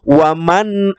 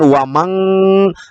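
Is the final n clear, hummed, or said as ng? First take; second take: clear; ng. First: The final n is clear with no hum. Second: The final n is said as ng. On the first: The speaker calls it right. "kembali ke bunyi aslinya nun sukun tanpa dengung" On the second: The speaker calls it wrong. "Tidak boleh mengatakan wamang"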